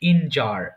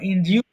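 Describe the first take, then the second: First: The second syllable sounds like 'jer'. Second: The second syllable sounds like 'jyoo'. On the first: The speaker calls it right. "এটা সঠিক উচ্চারণ হবে ইনজার" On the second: The speaker calls it wrong. "বা ইনজিউ"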